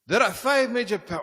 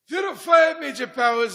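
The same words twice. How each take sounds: First: It is said in the speaker's plain accent. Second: It is said in a put-on Scottish accent. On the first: The speaker calls it wrong. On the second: The speaker calls it right.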